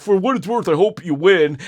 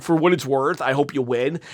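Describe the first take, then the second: First: Said in the usual way. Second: A soft, mocking impression of Cody's line; mocking Cody, quieter. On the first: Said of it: "Cody comes up to him and said". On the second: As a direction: say it in a small, sarcastic voice. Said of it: "now Cody's like".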